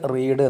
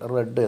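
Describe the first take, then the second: First: The word has a long 'ee' vowel. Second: The word has a short 'e' vowel. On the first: The speaker calls it wrong. "ഇവിടെ ഇത് റീഡ് എന്ന് വായിക്കരുത്" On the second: The speaker calls it right. "റെഡ് എന്ന് വായിക്കണം"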